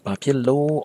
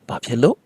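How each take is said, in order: First: The last syllable is drawn out without falling. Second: The last syllable is cut off short, falling. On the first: The speaker calls it wrong. "They should not be pronounced as bapilo" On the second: The speaker calls it right. "a cutoff tone that goes down"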